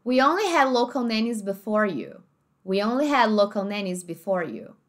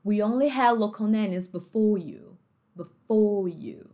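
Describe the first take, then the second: First: "before" with its final R sounded; American R. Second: Slow "before" ending in closed oh, no R; British dropped R. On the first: Teacher giving American sentence, R sounded in "before". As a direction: curl a clear R at the end of "before". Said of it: "Olha como é que". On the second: Teacher showing the British way, R-less "before". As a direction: drop the R in "before", stretch it out. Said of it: "os britânicos". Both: Shown as a demonstration.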